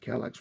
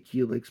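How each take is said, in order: First: The name begins with a K sound. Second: The name begins with an H sound. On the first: This is believed to be the correct way. "I believe the correct pronunciation is" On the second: This is the common way people say it. "most people I know say"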